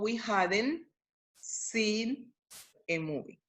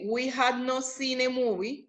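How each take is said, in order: First: Had and not are joined into hadn't. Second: Had and not are said as two words. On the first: "yo digo" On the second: "en vez de decir"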